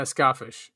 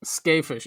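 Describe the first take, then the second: First: Skafish with SKAH as the first syllable; broad A pronunciation. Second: Skafish with SKAY as the first syllable; long A pronunciation. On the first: Host echoes co-host's reading of the name, SKAH-fish. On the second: Host offers a pronunciation of the scholar's name, SKAY-fish. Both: Shown as a demonstration. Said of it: "Or Skafish. I think it's Skafish".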